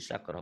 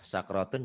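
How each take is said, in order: First: The word ends cut short, on -ah. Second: The word ends with its full ending, -otun. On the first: The reading stops at this word. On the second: The reading continues past this word.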